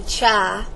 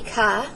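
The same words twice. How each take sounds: First: The word does not begin with a K sound. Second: The word begins with a K sound. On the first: The speaker calls it wrong. "Some students say chi" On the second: The speaker calls it right. "it's supposed to be chi"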